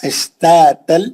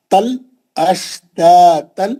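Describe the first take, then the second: First: اشتاتل with light unemphatic ت; corrected take; thin ta. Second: اشتاتل slow with light thin ت; tajweed ta. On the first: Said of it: "یہ تا پتلا ہے". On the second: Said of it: "پتلا تا". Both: Shown as a demonstration.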